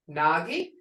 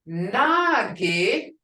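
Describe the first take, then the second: First: Nagi said with the tone that means thing; Nagi meaning thing. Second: Nagi said with the rising tone that means what; Nagi meaning what. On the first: Teacher contrasts the tones of Nagi for the class. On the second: Teacher contrasts Nagi tones, the what reading rising. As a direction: lift the end of Nagi as in a question. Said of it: "as in what?". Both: Shown as a demonstration.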